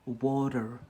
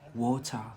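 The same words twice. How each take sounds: First: It is said in an American accent. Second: It is said in an English accent. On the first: "in America, they say water" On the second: "In England, they say water"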